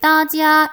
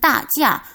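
First: Both syllables are said on a high level pitch. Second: Both syllables are said with a falling pitch. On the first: "일성으로 바뀌거나" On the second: "전체를 사성하시는"

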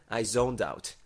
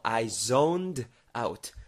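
First: The phrase is said quickly and smoothly. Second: The phrase is said slowly and carefully.

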